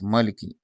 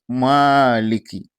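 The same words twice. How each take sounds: First: The vowel after the m is short. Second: The vowel after the m is long. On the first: The speaker calls it wrong. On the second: The speaker calls it right. "There's Alif Maddi after this meme"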